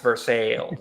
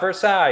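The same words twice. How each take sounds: First: It is said the local Missouri way. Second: It is said the usual, non-local way. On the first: This is how locals say the town's name. The speaker calls it right. "we also pronounce it Versailles" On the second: This is not how locals say the town's name. The speaker calls it wrong. "It's not Versailles"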